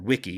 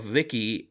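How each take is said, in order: First: The name begins with a W sound. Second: The name begins with a V sound. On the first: This is how the person says his own name. The speaker calls it right. "he pronounces his name Wiki" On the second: This is how a commentator says the name. The speaker calls it wrong. "excuse me, not Vicky"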